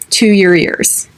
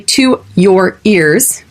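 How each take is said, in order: First: The words are squished together and reduced. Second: Each word is said separately and fully. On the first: The speaker calls it right. "It's squished together" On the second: The speaker calls it wrong. "We don't say to your ears. It's not separated"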